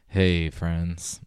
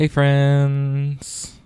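First: The voice is pitched lower and deeper. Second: The voice is pitched higher and lighter. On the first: "Let me take this voice down a little bit" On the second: "That was really effeminate"

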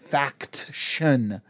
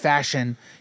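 First: The word is enunciated with a clear 'k' sound. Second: The word is slurred to sound like 'fashion'. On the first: The speaker calls it right. "you gotta get that faction. That enunciating" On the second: The speaker calls it wrong. "I keep saying fashion. It's fashion. But because I talk too fast"

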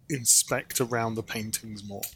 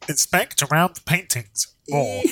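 First: It is said in a normal speaking voice. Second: It is said in a funny, pinched telephone voice.

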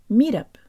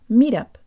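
The two takes are said the same way.

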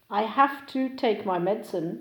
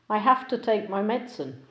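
First: "Have to" is pronounced fully and separately. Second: "Have to" is reduced and linked together.

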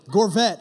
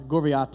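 First: The surname is pronounced Gorvette. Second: The surname is pronounced Gorviate. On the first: This is the name's real pronunciation. "Gorvette, I believe, is how you say it" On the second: This is a made-up playful version of the name. "Gorviate is what I like to call him"

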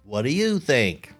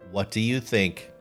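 First: It is read with a put-on regional accent. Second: It is read in a plain everyday voice. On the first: The speaker calls it right. "I need to read this with an accent" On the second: The speaker calls it wrong. "I'm reading this in the wrong"

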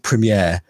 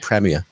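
First: The word is pronounced the American way. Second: The word is pronounced the British way. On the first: "I think that's how Americans say it" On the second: "We say premiere"

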